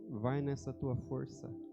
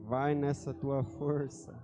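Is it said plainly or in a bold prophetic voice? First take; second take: plainly; prophetic voice. First: It is said in a plain, ordinary voice. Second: It is said in a bold, prophetic voice.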